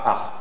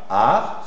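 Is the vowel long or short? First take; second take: short; long. First: The vowel is short and clipped. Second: The vowel is drawn out long. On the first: The speaker calls it wrong. "c'est pas ar" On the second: The speaker calls it right. "tu diras ar"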